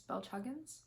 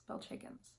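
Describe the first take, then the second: First: Said in the usual way. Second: Soft unvoiced aside fixing the name; whispered self-correction. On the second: Real, not acted. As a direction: whisper the name to yourself, settling on it.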